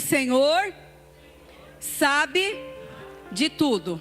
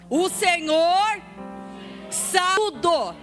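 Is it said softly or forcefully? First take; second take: softly; forcefully. First: It is said in a normal, softer voice. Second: It is said loudly, with authority.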